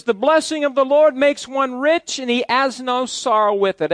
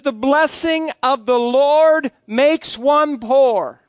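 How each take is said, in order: First: Said in the usual way. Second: Slow, solemn reading with "poor" slipped in as a joke; deliberate misreading. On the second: Shown as a demonstration. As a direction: read "poor" as if it were scripture, deadpan. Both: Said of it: "No, in my Bible".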